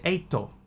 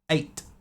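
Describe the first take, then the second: First: The word ends with an added vowel sound. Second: The word ends on a T consonant. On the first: The speaker calls it right. "You say eito" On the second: The speaker calls it wrong. "you can't say eight"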